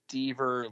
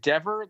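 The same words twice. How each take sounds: First: The first vowel is a long e sound. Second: The first vowel is a short e sound. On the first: "or is it Dever like Lever" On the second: "is it Dever like never"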